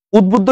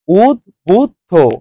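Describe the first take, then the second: First: Said in the usual way. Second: "উদ্বুদ্ধ" slowly split as ud-bud-dho; syllable-by-syllable pronunciation. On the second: Shown as a demonstration. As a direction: sound out "উদ্বুদ্ধ" with each syllable apart. ("উদ্বুদ্ধ" ধীরে উদ-বুদ-ধো ভেঙে উচ্চারণ) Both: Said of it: "উদ্বুদ্ধ কি হবে right answer?".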